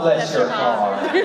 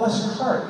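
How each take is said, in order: First: It is said in a sweet, sarcastic tone. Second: It is said in a warm, sincere tone. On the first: The speaker hides hostility behind politeness. "in the South, oh, bless your heart. I will shiv you in the shower" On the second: The speaker genuinely feels sympathy.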